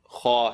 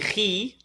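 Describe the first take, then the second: First: The kh sound is heavy and full. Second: The kh sound is light and thin. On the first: The speaker calls it right. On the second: The speaker calls it wrong. "Don't say khi"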